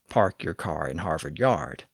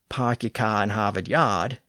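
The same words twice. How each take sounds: First: A rhotic accent pronounces the R sounds after vowels. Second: A Boston accent drops the R sounds after vowels.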